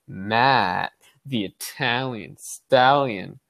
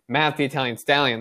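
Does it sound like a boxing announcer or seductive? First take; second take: seductive; announcer. First: It is said in a slow, suggestive voice. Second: It is called out like a boxing announcer. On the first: The name refers to the adult film star. "then it'd be door number 2" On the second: The name refers to the boxer Rocky. "they're probably referring you to Rocky"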